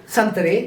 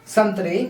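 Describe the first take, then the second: Both takes have the same delivery.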